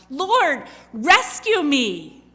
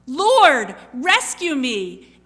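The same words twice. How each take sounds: First: Loud, slow plea for rescue; desperate cry. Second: Loud, slow, urgent shout for rescue; louder desperate cry. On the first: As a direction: cry out to be saved. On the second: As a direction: scream it as you sink. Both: Acted. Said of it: "he cries out".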